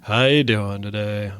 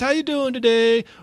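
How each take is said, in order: First: It sounds worn out and crazed, like Crazy Ralph. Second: It sounds like her normal sales delivery.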